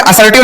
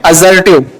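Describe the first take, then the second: First: S instead of Z in असर्टिव; mispronounced with S. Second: Lower, corrected "a-ZER-tiv" for असर्टिव; voiced Z in असर्टिव, closing the correction; Z-sound pronunciation. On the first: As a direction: say असर्टिव with a hissing S, "assertive". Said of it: "असर्टिव नहीं बोलते हैं". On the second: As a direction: say असर्टिव with a buzzing Z, "azertive". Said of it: "जा बोलेंगे". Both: Shown as a demonstration.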